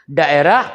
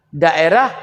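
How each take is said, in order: Both takes have the same delivery.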